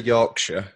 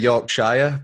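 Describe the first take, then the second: First: It is said in a Yorkshire English accent. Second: It is said in an American English accent. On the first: This is how locals say it. "I say Yorkshire" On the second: This is how outsiders say it. "You might say Yorkshire"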